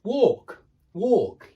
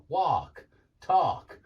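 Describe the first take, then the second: First: "walk" with a long or-vowel, high; British walk. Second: "walk" and "talk" with an ar-sound; mock American. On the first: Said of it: "the sound that you make in walk". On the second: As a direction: put on an American ar. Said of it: "they use this R sound". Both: Shown as a demonstration.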